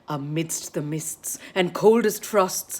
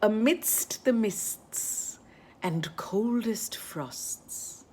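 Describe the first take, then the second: First: It is said at a faster pace. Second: It is said at a slower pace.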